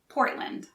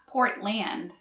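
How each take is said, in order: First: The second syllable is reduced, like 'lind'. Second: The second syllable has a full 'land' vowel. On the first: The speaker calls it right. "the land is pronounced more like Lind" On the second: The speaker calls it wrong. "so it's not Portland"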